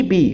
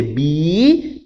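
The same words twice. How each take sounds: First: Said in the usual way. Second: BI held very long; teacher's drawn-out BI as a prompt; emphatic, prolonged syllable. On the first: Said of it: "Ela vem". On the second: Shown as a demonstration. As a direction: stretch the vowel of BI right out. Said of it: "repetir enfaticamente a primeira sílaba".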